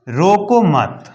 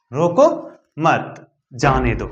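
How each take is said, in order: First: "रोको मत" drawn out slowly as one unit; pause after मत. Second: "रोको" rising, a break, then "मत जाने दो"; pause after रोको. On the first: Teacher shows what the comma does, slow joined रोको मत. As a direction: stretch रोको मत together, no break between them. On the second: Teacher shows what the comma does, pause after रोको. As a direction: lift रोको, stop, then let मत जाने दो fall. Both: Shown as a demonstration. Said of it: "वो यदि दे देते हैं तो क्या होता है?".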